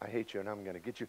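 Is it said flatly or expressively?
flatly. It is said flatly, without feeling.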